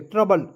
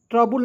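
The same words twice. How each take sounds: First: ट्रबल as trə-bəl, short neutral vowels; correct pronunciation. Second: ट्रबल said like trab-ul, the wrong way; ट्रबल with open a and u, as a mistake; wrong pronunciation. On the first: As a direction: say ट्रबल cleanly like trouble. (ट्रबल को छोटे स्वरों के साथ, सही उच्चारण) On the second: (ट्रबल को ट्राबुल जैसा, गलत उच्चारण) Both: Shown as a demonstration. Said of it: "ट्रबल नहीं पढ़ेंगे".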